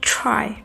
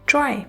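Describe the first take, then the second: First: The t is said with a puff of air. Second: The t is said without a puff of air. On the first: The speaker calls it right. "Puff of air के साथ बोलना है" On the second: The speaker calls it wrong. "टी की sound को उर्दू के letter टे की तरह पढ़ेंगे"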